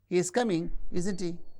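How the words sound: The tag ends with a low rise. The speaker is asking for information. "The low rise ... asking for information"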